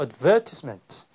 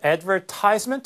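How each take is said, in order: First: It is said with the British stress pattern. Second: It is said with a non-British stress pattern. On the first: "영국식 발음으로" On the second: "advertisement 아니고"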